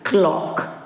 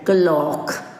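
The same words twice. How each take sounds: First: The k and l are joined with no vowel. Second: A vowel is inserted between the k and l. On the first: The speaker calls it right. "we should not overlap the sounds... make them together" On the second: The speaker calls it wrong. "said by a portion of the population or the mass as clock"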